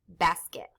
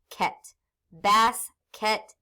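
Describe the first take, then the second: First: Said in the usual way. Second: Slow "ket", then BAS, KET with a gap; split into halves. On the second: Shown as a demonstration. Teacher cutting a word in half, "basket" syllable by syllable. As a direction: say "basket" as two separate pieces. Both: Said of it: "I can cut them in half".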